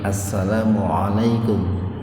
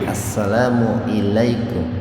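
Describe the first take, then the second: First: The syllable after 'assalamu' begins with an 'a' sound. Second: The syllable after 'assalamu' begins with an 'i' sound. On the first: The speaker calls it right. "pakai ain ala" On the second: The speaker calls it wrong. "bukan assalamu ilaikum"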